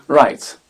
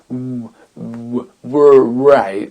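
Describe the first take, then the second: First: It starts directly with the r sound. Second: A w sound is pronounced at the start. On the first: The speaker calls it right. "Donc, right" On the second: The speaker calls it wrong. "Et non ... j'arriverai pas à le faire sinon"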